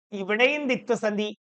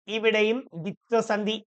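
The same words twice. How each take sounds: First: Said in the usual way. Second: ഇവിടെയും stressed, said slower to drive it home; slower repeat. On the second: Shown as a demonstration. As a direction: lean on ഇവിടെയും and slow down. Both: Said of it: "ദേ നോക്കിയേ".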